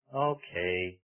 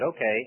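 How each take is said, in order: First: The word sounds grudging and reluctant. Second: The word sounds cheerful and willing. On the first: The speaker agrees but resents the task. The speaker calls it wrong. "instead of" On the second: The speaker gladly agrees to do the task. The speaker calls it right. "I made my mother's day"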